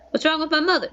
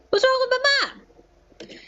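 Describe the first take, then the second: First: Said in the usual way. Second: "What's wrong with my mom?" much higher and slow; playful melodramatic redo; mock dramatic. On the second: Shown as a demonstration. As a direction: whine "mom" drawn out, hammed-up worry.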